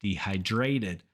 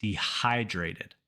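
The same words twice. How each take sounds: First: Dehydrated with the weight on DRA; wrong syllable stressed. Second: Dehydrated slowly, stress on HY; de-HY-drated, falling repeat-after-me model of Dehydrated; correct stress model. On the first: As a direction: say de-hy-DRA-ted for dehydrated, as a mistake. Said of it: "common mistake to stress that same syllable". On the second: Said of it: "So say it with me". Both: Shown as a demonstration.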